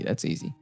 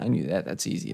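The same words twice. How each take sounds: First: Repeated as a soft whisper with no voice; whispered aside. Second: Much softer, voiced, half to himself; quiet aside. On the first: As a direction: whisper it to yourself. Repeats the same aside even softer. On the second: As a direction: say it under your breath. Muttering to himself after a right answer. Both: Real, not acted.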